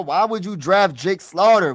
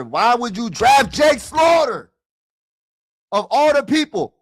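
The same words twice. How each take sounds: First: Said in the usual way. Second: Frustrated shout. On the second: Real, not acted. Streamer venting at his team's draft pick, exasperated shout. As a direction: shout it out at the screen in disbelief.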